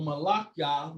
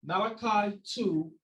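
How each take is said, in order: First: "Malachi" as mah-LAH-kyah, stress on LAH; Hebrew pronunciation. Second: Said in the usual way. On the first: Shown as a demonstration. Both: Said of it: "or Malachi".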